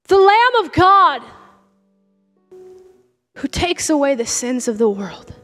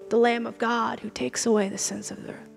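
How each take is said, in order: First: It is yelled out with excitement. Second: It is said casually, without excitement.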